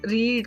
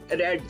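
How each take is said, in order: First: The vowel is long, like 'reed'. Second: The vowel is short, like 'red'. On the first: It is the present tense. "This is रीड के spelling आपको नजर आ रहे हैं" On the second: It is the past tense. "जब आप past में पढ़ रही हैं इट इज रेड"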